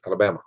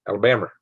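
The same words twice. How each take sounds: First: Said in the usual way. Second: Alabama said quickly with an r-coloured ending, "Alabam-er"; Southern pronunciation. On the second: Shown as a demonstration. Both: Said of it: "I like the way you say Alabama".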